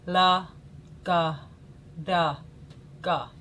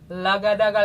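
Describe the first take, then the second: First: The syllables are said slowly. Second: The syllables are said fast.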